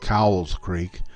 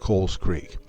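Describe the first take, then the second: First: The first word rhymes with howls. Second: The first word rhymes with holes. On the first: The speaker calls it wrong. "It looks like it's pronounced Cowles Creek" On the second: The speaker calls it right. "the right pronunciation is Coles Creek"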